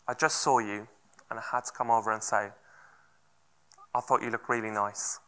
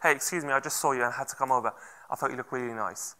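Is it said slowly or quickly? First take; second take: slowly; quickly. First: It is said slowly, with measured pauses. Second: It is said quickly, without measured pauses.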